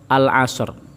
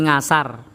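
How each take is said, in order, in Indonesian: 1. Kata ini dimulai dengan al sebelum vokal. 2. Kata ini dimulai dengan bunyi ng. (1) "Tetapi yang benar adalah sami kalian tulisan al-asr" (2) "Benten wong Jawa muni ngasar"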